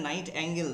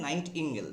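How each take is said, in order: First: "নাইট অ্যাঙ্গেল" ending in an "angel"-like "ang-gel"; wrong pronunciation. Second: "নাইট ইঙ্গেল" with "ing" in the second part; correct pronunciation. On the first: Teacher showing students the mistake, mispronounced with "ang" in "অ্যাঙ্গেল". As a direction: say "নাইট অ্যাঙ্গেল" with an open "a" starting the second part. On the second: Teacher correcting students on the bird's name, pronounced "নাইট ইঙ্গেল" with "ing". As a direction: say "নাইট ইঙ্গেল" as night-ing-gel, short i. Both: Shown as a demonstration. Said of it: "এটা নাইট অ্যাঙ্গেল নয়".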